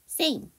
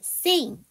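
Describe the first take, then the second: First: The word is said short, without a glide. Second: The word is said long, with a 'y' glide. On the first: The speaker calls it wrong. "일 번 saying" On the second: The speaker calls it right. "이 번이 맞는 거죠. 왜냐하면 이게 길게 발음을 해주셔야 돼요"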